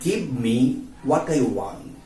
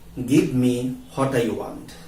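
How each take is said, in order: First: The word 'what' starts with a w sound. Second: The word 'what' starts with an h sound. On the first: The speaker calls it right. "try to say" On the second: The speaker calls it wrong. "Don't say"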